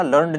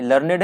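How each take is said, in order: First: लर्नड as one syllable, no vowel before the final d; wrong pronunciation. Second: लर्नेड in two syllables, "LUR-ned"; correct pronunciation. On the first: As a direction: run the ending together: लर्नड, "lurnd". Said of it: "लर्नड नहीं है ये". (लर्नड, "ने" के बिना एक साथ गलत उच्चारण) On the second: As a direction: sound the -ed as its own syllable in लर्नेड. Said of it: "ये लर्नेड है". (लर्नेड, "लर-नेड" दो हिस्सों में सही उच्चारण) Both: Shown as a demonstration.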